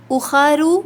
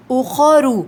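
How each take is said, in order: First: اخرو with a thin unrounded خ, slow; wrong light kha. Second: اخرو with خو full and heavy; heavy khu. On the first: Teacher showing students the mistake, thin kha. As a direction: show the wrong thin vowel. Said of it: "اخرو نہیں". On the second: Teacher showing students the right way, heavy khu. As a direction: round and fill the mouth on خو. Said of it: "تو اخرو نہیں پڑھنا". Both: Shown as a demonstration.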